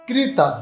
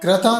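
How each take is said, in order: First: The first syllable is said as 'kri'. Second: The first syllable is said as 'kra'. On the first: The speaker calls it right. "के आर आई मतलब क्री" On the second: The speaker calls it wrong. "क्रा नहीं बोलना है"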